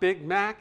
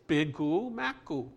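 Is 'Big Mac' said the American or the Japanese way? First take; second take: American; Japanese. First: It is said with plain American English sounds. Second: Vowels are added after the final consonants, Japanese-style. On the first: "it's not Big Mac in Japan" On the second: "It's Bigu Maku"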